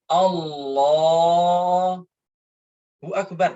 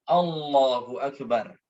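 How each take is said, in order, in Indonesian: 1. Ada jeda antara kedua kata itu. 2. Kedua kata itu menyambung tanpa jeda. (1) "ini salah" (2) "harus nyambung"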